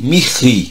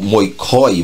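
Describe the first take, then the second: First: It is said with modern Greek pronunciation. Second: It is said with reconstructed ancient Greek pronunciation. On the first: "Mirri seria o grego moderno" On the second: "vamos ler no, no antigo"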